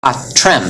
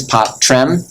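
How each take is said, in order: First: "Pot, trem" with t and r together starting the second syllable; consonants joined forward. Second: "pot, trem" divided between t and r; consonants split. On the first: Teacher shows class the right division, consonants joined forward. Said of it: "count as one consonant and they both go forward". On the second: Teacher shows class the wrong division, consonants split. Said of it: "would separate and go different directions". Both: Shown as a demonstration.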